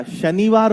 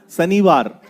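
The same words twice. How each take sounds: First: शनिवार with a clear sh sound, शनिवार; correct Shanivar. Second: शनिवार said with a plain s, सनिवार; wrong Shanivar. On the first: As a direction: start शनिवार with a crisp ш-sound. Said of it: "शनिवार होता है ये". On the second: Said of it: "शनिवार नहीं होता". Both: Shown as a demonstration.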